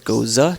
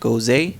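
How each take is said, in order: First: The word is said with its German ending. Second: The word is said with an accented final e. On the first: The speaker calls it right. "Goza is actually German rooted" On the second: The speaker calls it wrong. "Gose doesn't have an accent mark"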